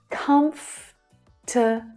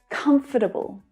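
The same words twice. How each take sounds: First: The word is said with three syllables. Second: The word is said with four syllables. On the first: "The correct pronunciation of this word uses only three syllables" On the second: "a tiny, tiny, tiny extra syllable"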